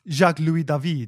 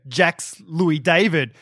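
First: The name is said with a French pronunciation. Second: The name is said with an Australian pronunciation. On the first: The speaker calls it right. "it's Jacques Louis David" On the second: The speaker calls it wrong. "he would pronounce things very Australian"

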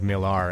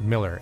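First: The last syllable has a full 'ar' vowel. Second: The last syllable has a reduced 'er' vowel. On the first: "really leaning into the pronunciation of Millar" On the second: "not Miller as I normally say it"

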